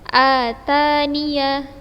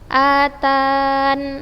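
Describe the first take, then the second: First: The word ends with a full ya syllable. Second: The word ends on a bare n sound. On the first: The reader continues without stopping. "dibaca fathah ketika wasal" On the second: The reader stops here. "atau membuang ya"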